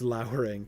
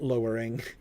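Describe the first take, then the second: First: The first vowel sounds like the one in 'cow'. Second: The first vowel sounds like the one in 'go'. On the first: It describes dark, threatening clouds. The speaker calls it right. "it's lowering" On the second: It means making something lower. The speaker calls it wrong. "it's not lowering"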